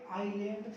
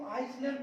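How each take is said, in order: First: आइलैंड with silent s, "ai-land"; correct island. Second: आइसलैंड with the s sounded, "ais-land"; mispronounced island. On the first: Teacher answering how to read island, आइलैंड without any s. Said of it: "क्या पढ़ेंगे?". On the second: Teacher showing how people wrongly read island, आइसलैंड with an s. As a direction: voice the silent s in आइसलैंड. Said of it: "आइसलैंड पढ़ते आ रहे हैं". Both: Shown as a demonstration.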